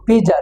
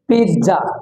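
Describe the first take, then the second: First: The middle consonant is a z sound. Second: The middle consonant is a ts sound. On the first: The speaker calls it wrong. "পিজা no" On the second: The speaker calls it right. "This is right pronounce"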